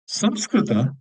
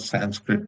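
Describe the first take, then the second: First: The name is said with three syllables, Sam-skri-ta. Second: The name is said with two syllables, San-skrit.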